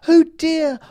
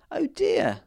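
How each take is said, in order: First: Very high, loud cry of alarm; a queen's panicked exclamation; fearful oh dear. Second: Breathy high whisper of dismay; whispered oh dear. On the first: Fairy queen despairs as the Bigfoot nears: very high, loud cry. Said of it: "cried the fairy queen". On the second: Big man learns picking kills the flower fairy: whispered dismay. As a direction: gasp it out under the breath. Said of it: "said the man". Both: A narrator's reading.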